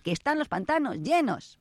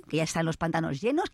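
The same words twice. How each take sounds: First: Llenos pushed up high with a falling end; higher insistent "llenos"; emphatic repeat. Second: Said in the usual way. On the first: Shown as a demonstration. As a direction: repeat it higher to drive it home. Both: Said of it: "repeated louder and higher".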